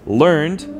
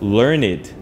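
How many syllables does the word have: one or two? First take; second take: one; two. First: It is said with one syllable. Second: It is said with two syllables. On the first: It means having studied something. "그러면은 음절 하나예요" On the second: It means having much knowledge. "a voiced second syllable"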